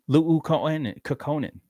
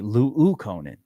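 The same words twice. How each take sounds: First: The first u sound is short. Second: The first u sound is doubled and long.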